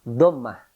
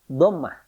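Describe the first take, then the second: No difference in how they are said.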